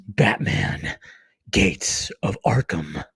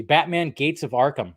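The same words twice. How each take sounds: First: Low, slow trailer title reveal; movie trailer voice. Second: Said in the usual way. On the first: Shown as a demonstration. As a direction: drop low and draw out the title like a trailer announcer. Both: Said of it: "It's my movie voice".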